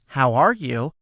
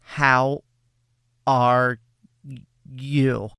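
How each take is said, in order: First: It is said smoothly without breaks. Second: It is said haltingly with a break.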